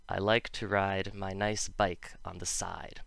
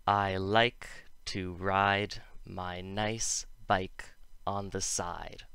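First: Said in the usual way. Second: Slow, careful model sentence; slow demo. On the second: Shown as a demonstration. Teacher slowly models a practice sentence. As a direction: spell out each word slowly. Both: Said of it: "here's an example to try".

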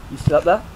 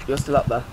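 First: "there" lifted in a rise; questioning. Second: Said in the usual way. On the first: Real, not acted. Gamer peeking at enemy, questioning. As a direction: ask it, rising on "there".

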